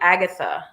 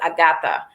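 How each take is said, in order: First: The name has its usual, familiar pronunciation. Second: The name has an island-style pronunciation. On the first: "you know the name Agatha" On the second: "the way they pronounce it was Agatha"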